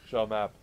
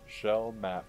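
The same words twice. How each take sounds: First: It is said at normal speed. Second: It is said more slowly.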